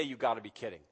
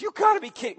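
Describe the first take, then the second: First: Said in the usual way. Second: Loud, high "You gotta be kidding"; incredulous. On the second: Acted. Micah answering the baffled people, loud and incredulous. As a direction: scoff at them in disbelief. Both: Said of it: "Well, he doesn't say".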